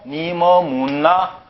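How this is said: It is said in a Seoul accent. "이걸 서울 사람 말로"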